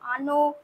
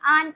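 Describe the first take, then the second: First: It ends with a short final vowel sound. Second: It ends on a bare consonant, no final vowel. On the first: The speaker calls it right. "এটাই হচ্ছে সঠিক উচ্চারণ" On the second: The speaker calls it wrong. "এগুলো কিন্তু ভুল উচ্চারণ"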